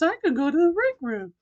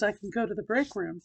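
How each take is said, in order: First: It is said in a higher, lighter voice. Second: It is said in a deep, low voice. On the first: The speaker calls it right. "I repeated the same exact thing" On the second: The speaker calls it wrong. "I said it in my old voice"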